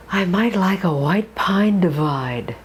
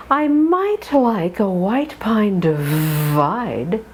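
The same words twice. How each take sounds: First: Said in the usual way. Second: The sentence read slowly, each diphthong drawn; slow it down and glide every I; slow drill reading. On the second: Shown as a demonstration. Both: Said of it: "Sentence two".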